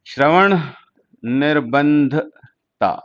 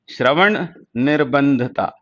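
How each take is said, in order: First: Slow, word by word. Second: Said in the usual way. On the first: Shown as a demonstration. Teacher slowly breaking the Hindi term into parts for students. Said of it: "repeated word by word". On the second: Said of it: "Shravan / निर्बंधता (split repeat)".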